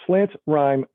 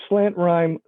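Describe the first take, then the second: No difference in how they are said.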